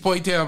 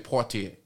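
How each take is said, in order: First: The name is said with an English-like pronunciation. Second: The name is said with a French-like pronunciation. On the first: This is how ordinary people say it. "but the regular people, he's Poitier" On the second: This is the refined, correct way to say it. "the fashionably correct people would say Poitier"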